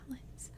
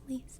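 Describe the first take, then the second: First: The name is said like Alice. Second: The name is said like Elise. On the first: The speaker calls it wrong. "Everyone thinks it's pronounced Alice. It's not Alice" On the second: The speaker calls it right. "It's Elise"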